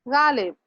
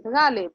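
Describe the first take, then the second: First: गालिब with a plain g sound, without the nukta; गालिब said the wrong way, plain ग; wrong pronunciation. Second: गालिब with a throaty gh sound for the nukta; right pronunciation. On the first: (गालिब गलत उच्चारण, बिना नुक्ते के सादा ग) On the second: (गालिब सही उच्चारण, नुक्ते वाला ग़) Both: Shown as a demonstration. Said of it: "गालिब नहीं".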